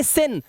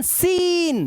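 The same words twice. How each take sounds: First: "सिन" with a short i; wrong brief "सिन"; short-vowel mistake. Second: "सीन" high with a held ee; drawn-out, higher "सीन"; long vowel. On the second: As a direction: stretch the ee in "सीन". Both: Shown as a demonstration. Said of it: "ना कि सिन".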